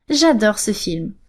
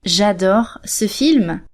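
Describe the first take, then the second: First: Said in the usual way. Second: Very slow, careful French; slow model sentence. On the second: Shown as a demonstration. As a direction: say it slowly for the learner. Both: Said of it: "So you could say".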